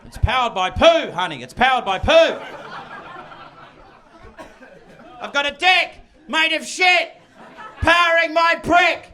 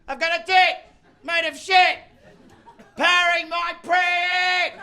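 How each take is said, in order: First: Loud, high sing-song bragging; gleeful shouted boast. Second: High, loud yell, slowing on the end; gleeful yell. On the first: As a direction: crow it like a proud idiot. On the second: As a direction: bellow it with childish glee. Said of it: "glee from yelling". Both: Retold or imitated.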